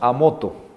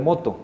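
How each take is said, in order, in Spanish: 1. Se añade un sonido vocálico antes de la palabra. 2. La palabra empieza directamente, sin vocal añadida. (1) "cuando decimos a moto" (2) "en vez de moto"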